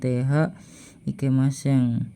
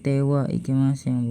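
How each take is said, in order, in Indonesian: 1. Partikel itu dilafalkan dengan bunyi h. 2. Partikel itu dilafalkan dengan bunyi w. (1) "bukan th ikimaseng" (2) "dibaca wa bukan th"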